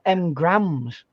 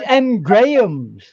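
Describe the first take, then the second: First: The name is said quickly with the middle squeezed. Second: The name is said fully with every part clear. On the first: The speaker calls it wrong. "I hear a lot of American people say M grams" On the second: The speaker calls it right. "it's not. It's M Grahams"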